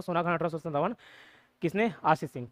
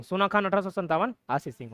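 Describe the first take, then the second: First: Softer matter-of-fact recitation for memorising; plain rote reading. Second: Said in the usual way. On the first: Shown as a demonstration. Teacher shows students a plain read-through, quiet recital. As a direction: read it out quietly, just running through the list. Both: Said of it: "normally read करके याद कर सकते हो".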